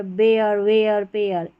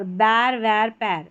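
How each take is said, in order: First: बेयर, वेयर, पेयर split into "ay-yer"; two-part "e-yar" ending. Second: बैर, वैर, पैर with one open "ai" vowel; single-vowel "air" ending. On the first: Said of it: "एयर, ये वाला उच्चारण". (बेयर, वेयर, पेयर को ए-यर करके) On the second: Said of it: "इस तरीके से पढ़ते हैं". (बैर, वैर, पैर को ऐ की मात्रा से) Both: Shown as a demonstration.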